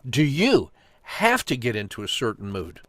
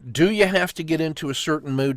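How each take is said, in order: First: The word have carries strong emphasis. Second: The word have carries no special emphasis. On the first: It questions whether it is really necessary. "if I change it to the word have" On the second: It is a general question about people. "That's sort of a generic human statement"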